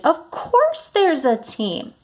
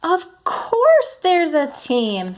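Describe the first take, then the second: First: High, slow and excited; excited storybook voice. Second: High, slow and excited; bright excited reading voice. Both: Shown as a demonstration. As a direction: read it with real excitement. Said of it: "I changed my voice to sound excited".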